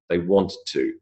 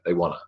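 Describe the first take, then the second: First: Both words are said fully and separately. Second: The words blend into one reduced word. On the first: The speaker calls it wrong. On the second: The speaker calls it right.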